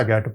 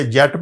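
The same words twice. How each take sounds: First: گیٹ said with a hard g, like gate; correct hard g. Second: جیٹ said with a soft j, like jet; wrong soft g. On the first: Teacher gives the real reading, hard g. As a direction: read گیٹ as get, hard g. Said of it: "گیٹ پڑھتے ہیں". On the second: Teacher shows the rule-based reading, soft j. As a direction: read جیٹ with a j sound. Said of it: "یہ جیٹ پڑھنا چاہیے تھا". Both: Shown as a demonstration.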